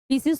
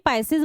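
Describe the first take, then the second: First: The first syllable sounds like 'pee'. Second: The first syllable sounds like 'pie'. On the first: The speaker calls it wrong. "पीसीज तो नहीं" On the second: The speaker calls it right. "पाइसिस बोला जाता है"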